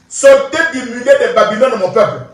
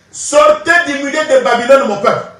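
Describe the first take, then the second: No difference in how they are said.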